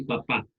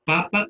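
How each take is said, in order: First: Papá as paPÁ; papá stressed at the end; stress on last syllable. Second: Papa as PApa; papa stressed at the front; stress on first syllable. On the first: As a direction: lean on the final pá of papá. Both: Shown as a demonstration. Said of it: "Hay dos formas".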